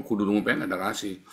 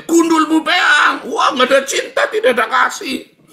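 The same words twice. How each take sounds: First: Said in the usual way. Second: Blunt shout. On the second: Retold or imitated. Preacher showing his own harsh talk, shouting high. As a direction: blast it out like a rough-talking man. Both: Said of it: "Kalau ngomong kayak saya".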